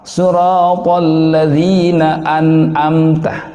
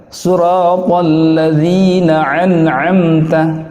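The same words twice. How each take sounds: The two takes are said the same way.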